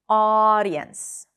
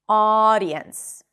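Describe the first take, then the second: The two takes are said the same way.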